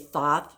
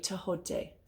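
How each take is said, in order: First: The H is not heard as a separate sound. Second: The H is heard as a separate sound. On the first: The speaker calls it wrong. "A lot of people say Thoth. That is not how it's pronounced" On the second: The speaker calls it right. "The H is a H sound"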